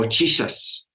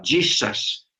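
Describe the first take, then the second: First: "Jesus" with a "tch" start, "tchissas"; English pronunciation. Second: "Jesus" with a "dj" start, "djissas"; English pronunciation. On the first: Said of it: "o Jesus". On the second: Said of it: "que suena casi igual". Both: Shown as a demonstration.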